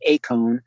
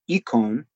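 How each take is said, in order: First: The word uses the Erasmian Greek pronunciation. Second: The word uses the modern Greek pronunciation. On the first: "you may have the Erasmian, which is eikon" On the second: "You may have a modern, which is eikon"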